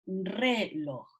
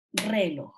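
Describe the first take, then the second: First: "reloj" split in two, a weighted RE, then a lower loj; lower-pitched "reloj", syllables apart, first one stressed. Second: "reloj" run together as RÉloj, falling after RE; lower-pitched "reloj" as one word, weight on RE; misplaced stress on RE. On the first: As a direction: imitate children saying "reloj" as RE, loj. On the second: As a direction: imitate children stressing the first syllable of "reloj". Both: Retold or imitated. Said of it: "hay niños que dicen re".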